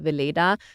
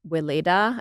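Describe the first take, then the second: First: The name is pronounced the German way. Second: The name is pronounced the American English way. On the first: "In Germany, it's called" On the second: "I think that's how you would pronounce it here in the U S"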